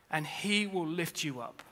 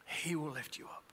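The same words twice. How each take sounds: First: Said in the usual way. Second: "He will lift you up" repeated much softer, almost to himself; soft echo. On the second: Acted. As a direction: let the line fall away gently, softer.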